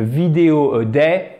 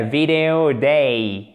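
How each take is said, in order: First: "vidéo a day" in a flat French accent; "vidéo a day" with level French intonation. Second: Slow "Video a day" with big pitch movement; wide English tune. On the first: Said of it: "c'est pas terrible". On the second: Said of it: "beaucoup d'amplitude en anglais". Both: Shown as a demonstration.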